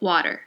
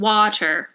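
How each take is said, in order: First: It is ordinary American with a softened T. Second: It is American with a clearly pronounced T.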